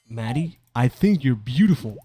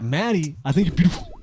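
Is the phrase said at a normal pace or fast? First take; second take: normal; fast. First: The phrase is said at a normal, even pace. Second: The phrase is rushed out very quickly. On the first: This is how it was meant to sound. The speaker calls it right. "That's what I was trying to say" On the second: This is how it actually came out, from nerves. The speaker calls it wrong. "I said it really fast"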